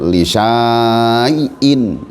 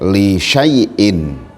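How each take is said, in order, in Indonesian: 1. Vokal setelah sh panjang. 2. Vokal setelah sh pendek. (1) "tidak dibaca panjang, li syai'in, salah" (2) "dibaca pendek"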